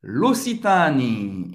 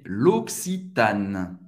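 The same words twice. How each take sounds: First: "L'Occitanie" as lo-see-TA-nee, no K sound; non-French pronunciation. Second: Slow, lower "L'Occitane" as lok-see-TAN; French pronunciation. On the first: Teacher naming the brand before correcting it, non-French pronunciation. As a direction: draw out "L'Occitanie" louder, with a sounded vowel ending. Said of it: "em francês, é L'Occitane". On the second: Teacher giving the French brand name, French pronunciation. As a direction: sound a K in "L'Occitane", end on N. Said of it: "em francês, é". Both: Shown as a demonstration.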